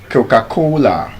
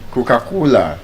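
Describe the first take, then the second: Both takes have the same delivery.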